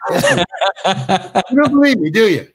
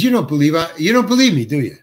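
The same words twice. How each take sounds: First: Slow and drawn out, laughing through it; amused, slow mock-director delivery; slow laughing repeat. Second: Said in the usual way. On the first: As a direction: savour the director's line, stretching it out with a laugh. Speaker repeats director's line, savouring it.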